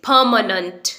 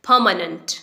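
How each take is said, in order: The two takes are said the same way.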